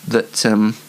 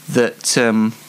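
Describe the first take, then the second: No difference in how they are said.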